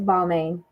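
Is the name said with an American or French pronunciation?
American. The name is said with an American pronunciation. The speaker calls it wrong. "as an American"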